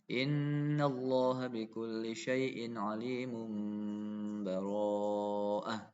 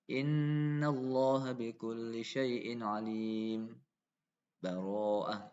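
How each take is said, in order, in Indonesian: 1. Langsung menyambung ke bara'ah tanpa jeda. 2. Ada jeda singkat sebelum bara'ah. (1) "Kalau wasol ini ya disambung" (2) "Yang kedua saktah"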